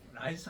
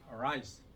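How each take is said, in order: First: The first sound is a light Korean flap. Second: The first sound is a curled English R. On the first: The speaker calls it wrong. "라이스 하면 안 돼요" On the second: The speaker calls it right. "R 발음 굴려야 돼. ... 이렇게 혀를 굴려야 돼"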